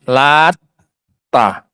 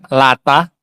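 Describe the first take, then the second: First: The t sound is held long and doubled. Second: The t sound is short and single. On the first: "Terkadang dibaca apa? Tasydid" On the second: "Terkadang dibaca ringan"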